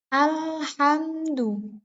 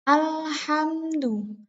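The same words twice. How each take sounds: The two takes are said the same way.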